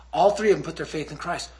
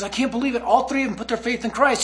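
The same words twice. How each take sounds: First: Said in the usual way. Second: Put-on higher, amazed, overexcited kid; Josh. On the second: Kid reporting to the praying group, freaking out excitedly. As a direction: imitate a kid breathlessly reporting great news. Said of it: "he's freaking out".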